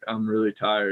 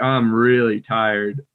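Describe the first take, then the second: First: Said with small mouth movements and low energy. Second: Said with big mouth movements and high energy. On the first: "as opposed to just like" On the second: "I would never be like, ... really moving the mouth, more energy"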